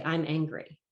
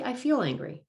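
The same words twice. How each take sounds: First: Said in the usual way. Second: Higher, stress on "feel" in "I feel angry"; teacher modelling "I feel angry", "feel" stressed. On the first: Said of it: "when you say". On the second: Shown as a demonstration. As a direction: model the better wording, leaning on "feel".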